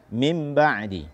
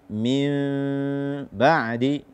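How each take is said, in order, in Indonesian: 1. Bunyi sengau sebelum b pendek, tidak ditahan. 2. Bunyi sengau sebelum b ditahan dan bersengau. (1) "jangan dibaca" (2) "tidak memberikan hak gunnah"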